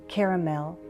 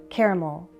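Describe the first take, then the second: Both takes have the same delivery.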